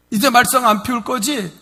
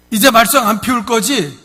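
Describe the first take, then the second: First: 말썽 stressed and held, falling at the end; weight on 말썽. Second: 이제 pushed high and loud, falling at the end; father presses his son hard on 이제; pressing question. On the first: 아버지가 같은 질문을 되풀이하며 말썽에 무게를 싣기. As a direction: repeat it, leaning on 말썽 this time. Repeat of the question. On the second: 아버지가 아들을 다그치며 이제를 강조해 묻기. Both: Retold or imitated.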